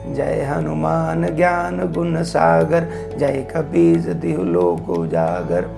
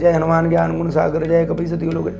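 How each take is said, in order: First: It is recited slowly and calmly. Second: It is recited quickly and hurriedly.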